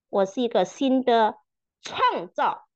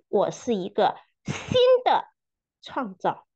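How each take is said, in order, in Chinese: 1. 重音在“创造”这个词上。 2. 重音在“新的”这个词上。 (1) "强调每一个词" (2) "强调每一个词"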